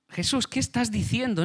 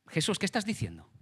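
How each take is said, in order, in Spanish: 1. La voz está alzada y regañando. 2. La voz se mantiene baja y tranquila. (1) "Y eleva, eleva el tono. Le estás riñendo" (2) "Ese tomarlo aparte viene a ser algo así"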